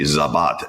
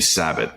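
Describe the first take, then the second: First: The name begins with a z sound. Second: The name begins with an s sound. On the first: This is how the name should be said. "it should be Zabat" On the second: This is how the name came to be said. "it just became Sabat"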